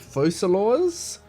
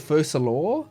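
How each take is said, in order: First: The name ends with an S sound. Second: The name ends without an S sound. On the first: "Lenny just pronounced it Focalors" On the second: "Doesn't she drop the S?"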